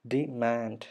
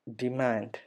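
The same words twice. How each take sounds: First: ഡിമാൻഡ് as di-MAND, weight on MAND; stressed, stretched MAND in ഡിമാൻഡ്; stress on second syllable. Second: Said in the usual way. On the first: Shown as a demonstration. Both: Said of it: "ഉം എന്ന് പറയുന്ന sound".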